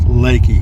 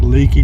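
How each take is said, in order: First: The first vowel sounds like 'lay'. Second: The first vowel sounds like 'lee'. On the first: It is the way the place name is actually said. The speaker calls it right. "but it's pronounced Lakey" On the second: It is read the way it is spelled. The speaker calls it wrong. "It's spelled L E A K E Y like leaky"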